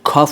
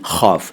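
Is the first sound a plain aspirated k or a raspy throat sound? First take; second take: plain k; raspy throat. First: It begins with a plain aspirated k sound. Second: It begins with a raspy fricative throat sound. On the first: The speaker calls it wrong. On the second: The speaker calls it right.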